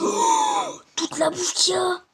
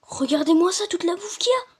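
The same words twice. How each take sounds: First: Excited shout. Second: Excited. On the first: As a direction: yell with joy at the food. Shouting at the food found. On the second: Repeats about the food. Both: Real, not acted.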